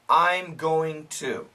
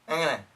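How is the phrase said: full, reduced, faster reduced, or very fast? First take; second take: full; very fast. First: Every word is said fully and carefully. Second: It is squeezed together and said very fast. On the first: "Perfect pronunciation" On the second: "And really fast"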